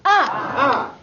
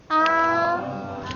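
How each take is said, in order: First: The pitch falls sharply from high to low. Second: The pitch stays high and level.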